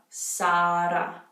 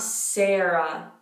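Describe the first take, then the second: First: The name has open Italian A's and R. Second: The name has English vowels and R. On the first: The speaker calls it right. "Focus on those A's, make sure you get that R" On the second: The speaker calls it wrong. "not Sarah"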